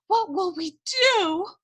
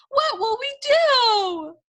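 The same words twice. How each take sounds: First: Distressed question. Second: Much higher, louder, slow wail. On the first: Cook wailing, first take. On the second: Cook wailing to Louise in despair, loud and high. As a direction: let the question break into a wail. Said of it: "wailed Cook". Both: Acted.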